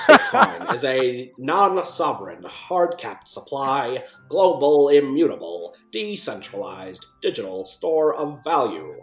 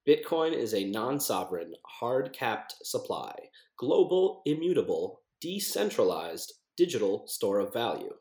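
First: It is read in a put-on old newscaster voice. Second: It is read in the speaker's ordinary voice.

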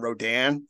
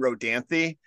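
First: The name ends after 'Rodan' with no final syllable. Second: The name ends with an extra 'thee' syllable. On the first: This is how the hosts said it on the podcast. The speaker calls it wrong. "we pronounce it Knights and Rodan for like 20 minutes" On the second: This is probably how the title is meant to be said. The speaker calls it right. "I think it's Knights and Rodanthe"

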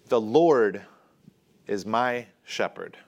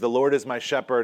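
First: It is said as a firm resolve. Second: It is said as a plain statement.

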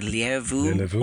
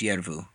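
First: The name begins with an L sound. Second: The name begins with a Y sound. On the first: "It's either Lervu" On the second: "or it's like Spanish where it's Yervu"

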